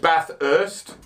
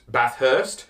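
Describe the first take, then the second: First: No separate h sound starts the second syllable. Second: A separate h sound starts the second syllable. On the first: The speaker calls it right. "There's only one H. It's part of the TH for Bath" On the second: The speaker calls it wrong. "a lot of people in Australia as well that call Bathurst"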